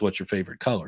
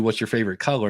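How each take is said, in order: First: Repeated a little softer and lower; restated under the breath. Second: Said in the usual way. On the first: Shown as a demonstration. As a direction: say it again quietly, as an aside. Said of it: "which was". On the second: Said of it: "if I ask you".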